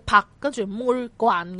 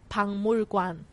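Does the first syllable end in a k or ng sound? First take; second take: k; ng. First: The first syllable ends in a k sound. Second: The first syllable ends in an ng sound. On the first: The speaker calls it wrong. "就好似纸条头先咁样读啦" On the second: The speaker calls it right. "我哋其实正確个读音系读彭妹棍"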